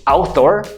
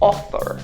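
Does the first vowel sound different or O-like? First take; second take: different; O-like. First: The first vowel is not pronounced like an O. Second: The first vowel is pronounced like an O. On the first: The speaker calls it wrong. "Instead of saying author" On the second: The speaker calls it right. "you'll say author"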